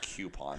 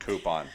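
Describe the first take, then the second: First: The word begins with a 'kyoo' sound. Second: The word begins with a plain 'coo' sound. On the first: The speaker calls it wrong. "What are Q doing there?" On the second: The speaker calls it right. "The word is coupon. It is C O U P. Coop"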